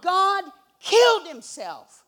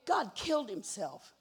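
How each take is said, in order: First: Slow, much louder and higher, full-force preaching; preaching shout. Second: Said in the usual way. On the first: Acted. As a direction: belt it out to the congregation, slowly. Preacher repeats, shouting to crowd.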